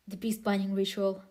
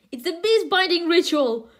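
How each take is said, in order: First: Said in the usual way. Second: The beast binding ritual shouted with glee after a laugh; excited reread. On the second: Shown as a demonstration. Reader rereads the ritual line to viewers, excited.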